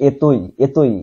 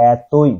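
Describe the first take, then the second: First: এতই with closed e, "etoi"; mispronunciation demo. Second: এতই drawn out with open æ, "ætoi"; corrected open vowel. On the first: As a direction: say এতই as e-toi, the common mistake. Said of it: "এরকম না". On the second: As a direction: stretch এতই into æ-toi. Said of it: "উচ্চারণ হবে এতই". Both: Shown as a demonstration.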